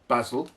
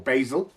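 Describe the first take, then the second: First: It is said with a British pronunciation. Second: It is said with a North American pronunciation.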